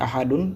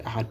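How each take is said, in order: First: "Ahadun" with the final -un sounded; full tanwin ending. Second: "Ahad" stopped on the d, no -un; sukun stop. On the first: Teacher quotes the reading to replace, "Ahadun" with -un pronounced. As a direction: say all three syllables, "A-ha-dun". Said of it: "Au lieu de dire Ahadun". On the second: Teacher shows how Arabic stops at verse end, "Ahad" with final sukun. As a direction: drop the ending and close "Ahad" on d. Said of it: "on s'arrête par l'accent soukoun". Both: Shown as a demonstration.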